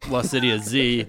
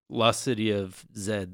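First: The last letter is said the American way, 'zee'. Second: The last letter is said the British way, 'zed'.

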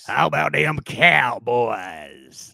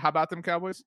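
First: It is said in a deep, burly voice. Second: It is said in an ordinary voice.

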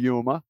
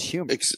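First: The word begins with a Y sound. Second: The word begins with an H sound. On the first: The speaker calls it wrong. "Say it with a Y" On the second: The speaker calls it right. "It's an H on the front of that word"

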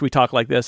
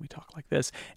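First: It is said at normal loudness. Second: It trails off, getting quieter.

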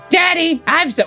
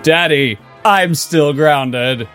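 First: It is said in a put-on Leia voice. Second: It is said in a put-on Kylo voice.

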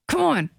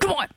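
First: It is said mildly, without anger. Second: It is said with strong anger.

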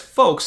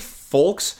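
First: The L sound is silent. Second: The L sound is pronounced hard. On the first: The speaker calls it right. "make me yell at my phone that it's folks" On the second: The speaker calls it wrong. "laying down folks with the hardest L of all time"

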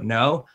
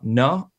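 First: The tag is short, flat and plain. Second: The tag is drawn out, warm and inviting. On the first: A plain confirmation tag. The speaker calls it wrong. "The no just sounds so boring, so short" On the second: A kinder, more inviting confirmation tag. The speaker calls it right. "The no has more flavor"

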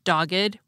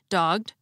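First: The ed ending is its own extra syllable. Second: The ed ending is only a final consonant. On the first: "had the same unusual pronunciation of the suffix ed" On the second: "pronounced like most English words ending in ed"

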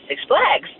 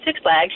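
First: The stress falls on the word Flags. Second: The stress falls on the word Six. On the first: "she'd put the pronunciation on flags" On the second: "instead of saying Six Flags"

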